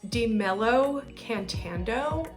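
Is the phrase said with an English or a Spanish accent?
English. It is said with an English accent. "like I'm Caucasian"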